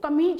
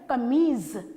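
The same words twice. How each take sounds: First: The last consonant is a 'j' sound. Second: The last consonant is a 'z' sound. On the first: The speaker calls it wrong. "सभी लोग कमीज बोलते हैं, नहीं" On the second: The speaker calls it right. "हमारा सही उच्चारण है कमीज"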